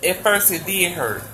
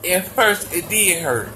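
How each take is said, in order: Both takes have the same delivery.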